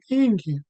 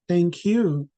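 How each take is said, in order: First: The stress falls where native speakers usually put it. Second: The stress falls on an unexpected syllable. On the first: The speaker calls it right. "I was supposed to say thank you" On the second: The speaker calls it wrong. "stress on the wrong place"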